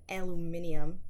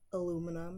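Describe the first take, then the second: First: The word is said with five syllables. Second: The word is said with four syllables. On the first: The speaker calls it wrong. "not fucking aluminium" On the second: The speaker calls it right.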